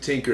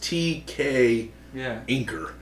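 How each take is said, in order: First: The name starts with a plain T sound. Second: The name starts with the letters T and K. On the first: Another person says the name this way. "He pronounces it Tinker" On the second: The name is properly said this way. "It's T-K Inker"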